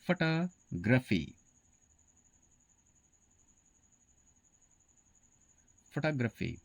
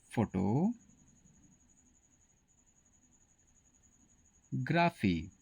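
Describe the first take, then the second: First: फोटोग्राफी said as "fa-TO-gra-fee", stress on the second syllable; correct pronunciation. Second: फोटोग्राफी said slowly as "fo-to-gra-fi", stress on the first syllable; wrong pronunciation. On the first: Teacher models the correct फोटोग्राफी for students. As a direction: model फोटोग्राफी with the weak first vowel "fuh-TOG". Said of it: "इसका सही pronunciation होता है". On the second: Teacher slowly shows students the wrong फोटोग्राफी. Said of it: "आपका ये pronunciation गलत है". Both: Shown as a demonstration.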